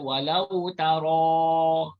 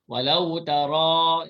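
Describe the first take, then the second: First: The ra is said with pushed-out, rounded lips. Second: The ra is heavy, with unrounded lips. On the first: The speaker calls it wrong. "Jangan baca walau taro" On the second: The speaker calls it right. "Yang kena angkat tu pangkal lidah"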